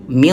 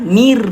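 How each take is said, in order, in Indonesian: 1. Bunyi R-nya tebal dan berat. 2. Bunyi R-nya tipis dan ringan. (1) "Ro-nya dibaca tebal" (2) "Jangan mir"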